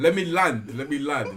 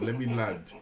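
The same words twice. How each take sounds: First: Louder, pressing to be heard; insistent. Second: Said in the usual way. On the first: Real, not acted. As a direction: cut them off, let me finish. Insists on finishing his story.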